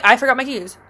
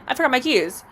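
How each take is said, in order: First: Breezy cover story; nonchalant. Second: Offhand and deadpan; dead serious nonchalance. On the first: To the landlord, a casual lie, nonchalant. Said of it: "Just nonchalant". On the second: Repeating the excuse to the landlord, deadpan nonchalant. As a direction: say it like it's totally normal. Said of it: "I'm dead serious". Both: Retold or imitated.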